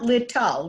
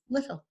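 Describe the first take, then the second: First: The middle t is a crisp, separate t. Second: The middle t is a soft, d-like flap. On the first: The speaker calls it wrong. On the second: The speaker calls it right.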